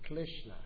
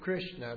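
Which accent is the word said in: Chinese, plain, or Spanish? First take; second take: Chinese; plain. First: It is said with a Chinese accent. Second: It is said with no foreign accent. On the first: "many people in China say it wrong. They say Krishna" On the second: "they don't say Krishna"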